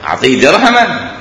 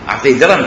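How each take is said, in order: First: درهما said as derhaman, the an ending heard; درهماً with a full -an; with nunation. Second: درهم said as derham, clipped and bare; درهم with no tanwin; no nunation. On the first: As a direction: make the tanwin on درهما ring as -an. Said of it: "هاي أعطيه درهما". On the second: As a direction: end درهم with no ending. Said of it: "تمام، خلص الكلام". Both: Shown as a demonstration.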